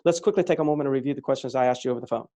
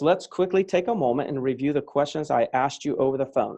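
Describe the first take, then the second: First: It is read very fast, faster than conversation. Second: It is read at a normal conversational speed. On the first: "High speed would" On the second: "that would be normal speed"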